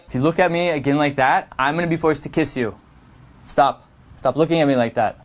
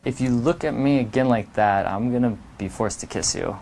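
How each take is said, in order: First: Quick and flat, no play; flat rushed. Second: Low, soft and teasing; a sly mock warning; playful threat. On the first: The wrong way to flirt, quick flat delivery. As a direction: rattle it off nervously. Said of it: "is not flirting". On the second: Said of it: "it's all in the delivery". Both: Shown as a demonstration.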